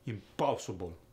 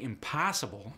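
First: It is said with a Russian accent. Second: It is said with a standard American accent.

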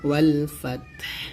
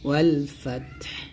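First: The word ends on a bare final consonant. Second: The same.

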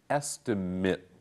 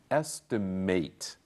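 First: The final syllable ends with a short 'it' sound. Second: The final syllable ends with a full 'ate' sound. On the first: The word is used as a noun. "Notice the last word here is pronounced estimate" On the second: The word is used as a verb. "As a verb, the same word is pronounced estimate"

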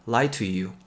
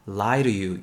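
First: The t in 'to' is a clear t. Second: The t in 'to' is a quick flap.

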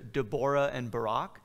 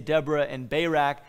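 First: The names are said closer to the original pronunciation. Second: The names are said with the American pronunciation. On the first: "this is probably something closer to Deborah and Barak" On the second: "I'll just use the American pronunciation that I was raised with"

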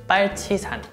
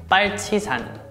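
First: It is said with Korean pronunciation. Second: The same.

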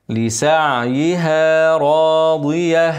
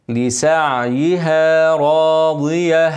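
The two takes are said the same way.

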